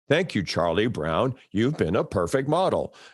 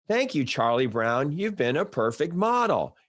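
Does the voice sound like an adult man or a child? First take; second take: adult man; child. First: It is said in a grown man's voice. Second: It is said in a lilting child's voice. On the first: A grown producer is giving the line reading. "so he's this man going" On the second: A child actor is delivering the line. "there's a lilt to the child actors. They're like"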